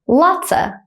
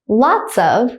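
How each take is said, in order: First: The words blend, ending in a short uh. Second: Both words are said fully and separately.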